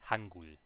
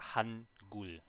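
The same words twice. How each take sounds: First: The n and g merge into one ng sound. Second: The n and g are pronounced as separate sounds. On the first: The speaker calls it wrong. "It's not Hangul" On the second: The speaker calls it right. "it's definitely an N, and then separate from that, it's a G"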